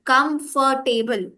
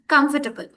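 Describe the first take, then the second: First: "comfortable" very slowly as COM-FOR-TABLE; slow, drawn-out "comfortable" ending in "table"; whole-way COMFORTABLE. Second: "comfortable" run together as KUMF-tuh-bul; reduced middle in "comfortable"; correct COMFORTABLE. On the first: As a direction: spell out every syllable of comfortable with full weight. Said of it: "it's in the whole way". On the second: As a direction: squeeze comfortable, stress on the first syllable. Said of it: "we are again rushing". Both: Shown as a demonstration.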